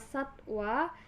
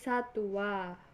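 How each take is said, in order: First: The w is said as a consonant. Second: The w is said as a u vowel. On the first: The speaker calls it right. "Kata satwa" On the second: The speaker calls it wrong. "dilafalkan menjadi"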